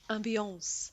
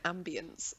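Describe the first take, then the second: First: The word is said with a non-English pronunciation. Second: The word is said with an English pronunciation. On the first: "if you pronounce it correctly, it's ambiance" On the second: "English people pronounce it ambience"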